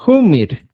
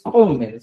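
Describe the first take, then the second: First: "Humir" with close u and i vowels, loud; "Humir" set apart and louder, u-i vowels; correct Quechua pronunciation. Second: "Homer" with open o and e vowels; "Homer" cited as the wrong form, o-e vowels; wrong pronunciation. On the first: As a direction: model "Humir" firmly, u and i in place of o and e. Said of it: "se dice". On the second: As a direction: demonstrate the rejected "Homer", with o and e. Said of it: "tampoco se dice Homer". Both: Shown as a demonstration.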